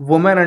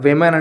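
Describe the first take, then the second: First: The word begins with an 'oo' sound. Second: The word begins with a 'vi' sound. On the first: The speaker calls it wrong. "ఉమెన్ అంటారు కాదండి" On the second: The speaker calls it right. "ఇక్కడ విమెన్ అని మనం పలకాలి"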